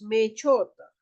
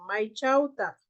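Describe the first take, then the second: First: The vowels are said as single plain vowels. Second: The vowels are said as gliding diphthongs. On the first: This is how speakers from the Callejón de Huaylas say it. "nosotros decimos me chota" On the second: This is how speakers from the Conchucos area say it. "ellos dicen Mai Chauta"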